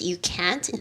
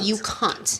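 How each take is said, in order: First: It is said in an American accent. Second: It is said in a British accent.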